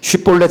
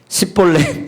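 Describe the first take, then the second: First: The word starts with a sh sound. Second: The word starts with a plain s sound. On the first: This is the required local pronunciation. The speaker calls it right. "쉽볼렛 해봐" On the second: The speaker cannot pronounce the sound and is exposed as an outsider. The speaker calls it wrong. "발음이 안 되니까 십볼렛"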